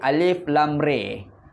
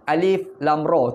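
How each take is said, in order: First: The last vowel is tilted toward an 'e' sound. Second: The last vowel is an open 'a' sound. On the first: This is the reading with imalah. "Satu lagi alif lam re, dia panggil imalah" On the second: This is the usual reading. "dia baca dengan alif lam ra, tu yang biasa"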